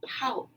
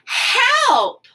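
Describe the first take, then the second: First: It is said with a rising, questioning tune. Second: It is said loudly, as an urgent exclamation.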